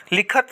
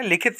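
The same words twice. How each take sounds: First: लिखत with no i, likh-at; लिखत said wrongly without the i; wrong pronunciation. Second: लिखित with an i, likh-it; लिखित said correctly with the i; correct pronunciation. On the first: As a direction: say लिखत ending in -at. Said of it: "गलत होता है". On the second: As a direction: say लिखित ending in -it. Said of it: "सही होता है". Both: Shown as a demonstration.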